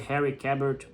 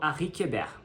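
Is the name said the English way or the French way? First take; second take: English; French. First: The name is said with an English pronunciation. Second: The name is said with a French pronunciation. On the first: "mas pode ser" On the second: "ele é suíço e fala francês, eu chamo, eu falo"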